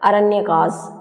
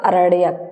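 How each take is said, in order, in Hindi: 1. शब्द के अंत में एक अतिरिक्त ash की आवाज़ जुड़ती है। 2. शब्द सीधे k की आवाज़ पर खत्म होता है। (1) "अगर आप इसे इंग्लिश में बोलेंगे" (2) "इसको ऐसे बोला जाएगा"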